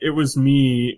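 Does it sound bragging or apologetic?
apologetic. It is said in an apologetic way.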